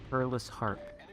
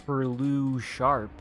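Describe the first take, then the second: First: "Perlus Harp", the s closing the first word; "Perlus Harp" with an h starting the second word; correct word split. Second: "Perlu Sharp", the s moved onto the second word; mock mispronunciation as "Perlu Sharp"; wrong word split. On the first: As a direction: end "Perlus" on s, then a separate "Harp". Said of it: "definitely not like Perlu Sharp". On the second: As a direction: say "Perlu" with an open ending, then "Sharp". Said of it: "definitely not like". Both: Shown as a demonstration.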